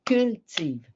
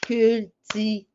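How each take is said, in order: First: CULTIVE in two syllables, cul-tive, silent final E; spoken-style syllables. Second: CULTIVE split into three, cul-ti-ve, final E sounded; written-style syllables. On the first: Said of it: "À l'oral, ça veut dire". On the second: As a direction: say "cultive" as cul... ti... ve, louder and higher. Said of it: "je dis pas «cultive». Ça, c'est à l'écrit". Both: Shown as a demonstration.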